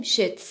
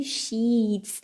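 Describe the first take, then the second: First: "sheets" with a short, lax i as in "sit"; short vowel. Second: "sheets" with a long, stretched ee; long vowel. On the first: Teacher shows the mistake to avoid, "sheets" with short i. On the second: Teacher warns learners about "sheets", long ee drawn out. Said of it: "ایش کشیده هستش". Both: Shown as a demonstration.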